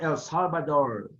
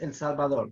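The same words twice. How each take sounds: First: El Salvador said the anglicised way; mispronounced name. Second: Said in the usual way. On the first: Shown as a demonstration. Teacher showing students the name to avoid, El Salvador mispronounced in English style. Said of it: "It's not El Salvador". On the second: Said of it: "It's El Salvador".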